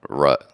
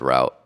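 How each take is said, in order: First: The name is said like the word 'rut'. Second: The name is said like the word 'route'. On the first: The speaker calls it right. "so it's Rut" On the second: The speaker calls it wrong. "I said it wrong. I said route"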